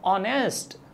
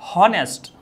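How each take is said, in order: First: The word begins with a vowel sound. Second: The word begins with an h sound. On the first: It would take the article an. "सही pronunciation क्या होता है? ऑनेस्ट।" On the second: It would take the article a. "हो आ रहा है"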